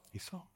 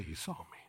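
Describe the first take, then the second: First: Soft high echo. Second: Soft call-and-response. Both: Shown as a demonstration. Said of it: "Everybody say".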